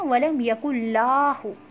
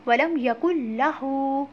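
First: The final hu vowel is kept short. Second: The final hu vowel is drawn out long. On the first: The speaker calls it wrong. "कुछ लोग पढ़ते हैं वलम यकुल्लाहु, तो ऐसे नहीं पढ़ना" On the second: The speaker calls it right. "बल्कि पढ़ना है वलम यकुल्लाहु। अब हु को हमने क्यों लंबा किया है?"

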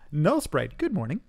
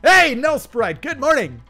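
First: It is said at a quieter volume. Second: It is yelled loudly.

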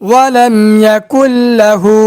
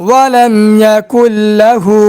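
The two takes are said the same way.

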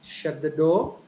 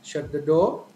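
First: The voice rises at the end. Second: The voice rises at the end.

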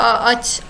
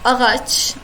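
First: The middle g sound is swallowed and barely heard. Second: The middle g sound is clearly pronounced. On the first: The speaker calls it right. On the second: The speaker calls it wrong.

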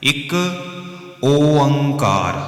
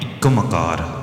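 First: It is said as 'ik oankar' with an o. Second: It is said as 'ikkam kar' with an m. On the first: The speaker calls it right. "ਇਹ ਸਹੀ ਉਚਾਰਨ ਹੈ ਜੀ" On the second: The speaker calls it wrong. "ਇਹ ਦੋਨੋਂ ਸਹੀ ਉਚਾਰਨ ਨਹੀਂ ਹੈ"

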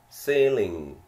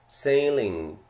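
No difference in how they are said.

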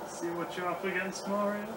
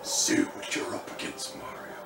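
First: It is said plainly, not very menacing. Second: It is said menacingly, like Doctor Claw.

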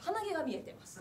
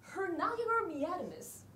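First: It is said in plain Japanese pronunciation. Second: It is said with an English-like accent.

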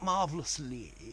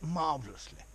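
First: The final vowel is held long. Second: The final vowel is cut off short. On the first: The speaker calls it wrong. "not marvellously" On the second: The speaker calls it right. "but marvellously ... you need to cut them off and make them short"

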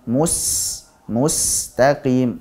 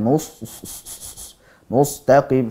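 First: The s sound is sharp, with a clear whistle. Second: The s sound is dull, without a sharp whistle. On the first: The speaker calls it right. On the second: The speaker calls it wrong.

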